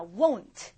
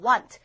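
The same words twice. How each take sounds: First: "Won't" with the vowel gliding from o to oo; two-part vowel won't. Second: "Want" punched loud with one simple vowel; single-vowel want. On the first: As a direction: round "Won't" through two vowel sounds, woh-oont. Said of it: "얘는요, 두 번 모입니다". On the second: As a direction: hit "Want" as one vowel sound, no glide. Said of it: "워 하고 한 번 나고 끝이에요". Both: Shown as a demonstration.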